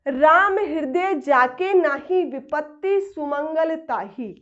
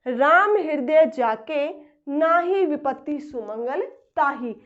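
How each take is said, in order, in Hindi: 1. विराम शब्द 'nahi' के बाद आता है। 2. विराम शब्द 'jake' के बाद आता है। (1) "राम हृदय जाके जिसके नाही नहीं है" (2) "राम हृदय जाके, राम जिसके हृदय में है"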